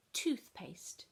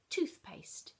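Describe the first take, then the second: First: Toothpaste with crisp t at both ends; clear model word. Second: Toothpaste whispered with a crisp t; whispered reveal. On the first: Shown as a demonstration. Teacher modelling Toothpaste for children, crisp t sounds. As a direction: stress the t in Toothpaste. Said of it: "Can you hear the sound". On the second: Acted. Teacher whispering the mystery object to children. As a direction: breathe out toothpaste secretly.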